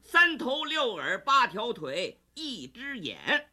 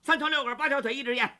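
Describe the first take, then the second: First: It is said slowly and clearly. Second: It is said fast and unclearly.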